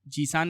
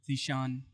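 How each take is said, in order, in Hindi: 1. बीच का व्यंजन सादा 's' की आवाज़ है। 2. बीच का व्यंजन 'sh' की आवाज़ है। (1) "जीसान नहीं" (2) "जीभ को थोड़ा सा ऊपर छूना चाहिए"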